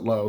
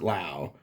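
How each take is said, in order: First: The vowel rhymes with 'go'. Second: The vowel rhymes with 'cow'. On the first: "I've heard people pronounce it Low" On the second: "he pronounced it Lau"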